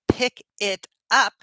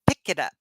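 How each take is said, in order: First: Each word is said separately and distinctly. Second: The words run together in one smooth chunk. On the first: The speaker calls it wrong. "instead of saying" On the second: The speaker calls it right. "we say"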